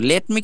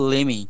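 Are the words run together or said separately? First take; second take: separately; run together. First: The two words are said separately and fully. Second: The two words are run together as one. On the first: "লেট মি কে আমরা একসাথেই বলবো লেমি" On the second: "একসাথেই বলবো লেমি, সংক্ষেপে"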